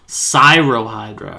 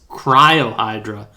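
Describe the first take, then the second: First: The name begins with the sound 'sigh'. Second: The name begins with the sound 'cry'. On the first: The speaker calls it right. "it's Cyro" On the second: The speaker calls it wrong. "I keep reading this as Cryohydra"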